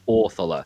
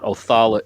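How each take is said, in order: First: The stress falls on the first syllable. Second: The stress falls on the last syllable. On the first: The speaker calls it right. "the stress of the of the word is placed on the front" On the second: The speaker calls it wrong. "it's not Othala"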